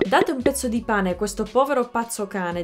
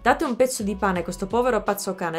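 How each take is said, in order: First: It is said at a normal, moderate speed. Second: It is said at a noticeably faster speed.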